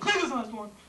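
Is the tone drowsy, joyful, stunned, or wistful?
stunned. It is said in a stunned, shocked way.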